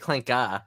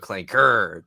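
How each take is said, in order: First: The word ends without an R sound. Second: The word ends with a hard R sound. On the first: It is an acceptable way to say it. The speaker calls it right. "it's fine to say clanka" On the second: It makes everyone upset. The speaker calls it wrong. "if you go clanker, that's when you know they everyone gets all mad"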